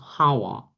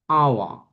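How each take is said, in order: First: It starts with a pronounced h sound. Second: It starts with a silent h. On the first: The speaker calls it wrong. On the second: The speaker calls it right.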